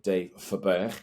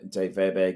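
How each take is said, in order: First: The surname is pronounced the Dutch way. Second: The surname is pronounced the plain English way.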